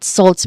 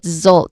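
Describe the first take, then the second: First: It begins with a hissing, voiceless s sound. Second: It begins with a buzzing, voiced z sound. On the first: The speaker calls it wrong. "not salts" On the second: The speaker calls it right. "it starts with a buzzing sound, with a letter Z sound, with a voiced sound"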